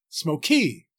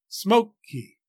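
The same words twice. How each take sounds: First: The stress is on the second syllable. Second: The stress is on the first syllable. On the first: The speaker calls it wrong. "We don't say smoky" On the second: The speaker calls it right. "English speakers place a heavier weight or stress on the first syllable"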